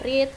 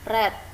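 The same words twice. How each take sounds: First: It is pronounced as the present-tense form. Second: It is pronounced as the past-tense form. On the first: It is the base form of the verb. "Kalau verb satu dibaca read" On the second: It is the past or past participle form. "verb dua dan verb tiga dibaca read"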